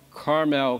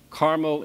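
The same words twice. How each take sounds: First: Carmel as car-MEL, full "mel"; California pronunciation. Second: Carmel as CAR-mul, weak second vowel; Indiana pronunciation. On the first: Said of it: "That's not". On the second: Contrasts Indiana town with California's. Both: Shown as a demonstration.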